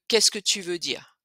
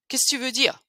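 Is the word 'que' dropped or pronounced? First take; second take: pronounced; dropped. First: The word 'que' is fully pronounced. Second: The word 'que' is dropped entirely. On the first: "Au lieu de" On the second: "on va carrément enlever que"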